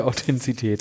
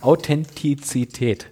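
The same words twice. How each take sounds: First: Authentizität said as "Autentsität", the z sound moved forward; Authentizität slurred with the syllables swapped; mispronounced word. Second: Authentizität said slowly and correctly as "Au-ten-ti-tsi-tät"; Authentizität spelled out carefully, each syllable clear; careful correct pronunciation. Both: Shown as a demonstration. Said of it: "So heißt es richtig".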